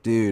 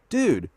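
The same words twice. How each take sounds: First: Said in a relaxed, parting tone. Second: Said in a casual, upbeat greeting tone. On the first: It means goodbye. "Dude is goodbye" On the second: It means hello. "dude is hello"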